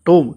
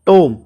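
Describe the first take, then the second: No difference in how they are said.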